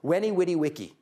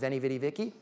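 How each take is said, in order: First: It is said with a Latin pronunciation. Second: It is said with an Americanized pronunciation. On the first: The speaker calls it right. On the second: The speaker calls it wrong.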